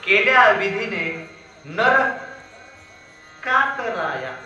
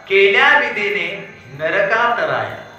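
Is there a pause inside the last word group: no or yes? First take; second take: yes; no. First: There is a pause after nar. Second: The last words run together without a pause.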